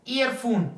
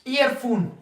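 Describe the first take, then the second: Both takes have the same delivery.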